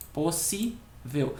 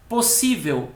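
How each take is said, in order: First: "Possível" slow and soft, syllables separated. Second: Said in the usual way. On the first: Shown as a demonstration. Teacher counting syllables for students, "Possível" divided slowly. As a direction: break "Possível" into its syllables, unhurried. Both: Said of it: "fazer a divisão silábica da palavra".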